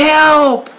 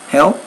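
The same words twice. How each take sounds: First: It is said loudly with lots of energy. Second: It is said softly in a flat monotone. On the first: The speaker calls it right. "You would definitely change your tone" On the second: The speaker calls it wrong. "a real soft monotone like that"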